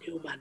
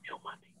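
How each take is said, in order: First: Said in the usual way. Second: Whispered aside. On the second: Acted. Aside muttered under breath.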